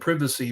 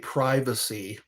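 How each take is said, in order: First: It is said with a British pronunciation. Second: It is said with the speaker's usual pronunciation. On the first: "in the U K, that's how they pronounce it" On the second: "we say privacy"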